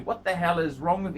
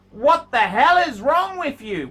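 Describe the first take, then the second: First: Said in the usual way. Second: Loud, incredulous scolding; exasperated yell. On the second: Real, not acted. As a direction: blast him for being so picky. Scolding the watch owner.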